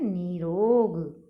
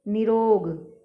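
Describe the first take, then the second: First: निरोग with a long ee, "nee-rog"; correct निरोग. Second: निरोग with a short i, "ni-rog"; mispronounced निरोग. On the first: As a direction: draw out both syllables of निरोग. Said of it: "शुद्ध होता है". (निरोग में लंबी ई, "नीरोग") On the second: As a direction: cut the first vowel of निरोग short. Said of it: "जबकि शुद्ध होता है". (निरोग में छोटी इ) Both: Shown as a demonstration.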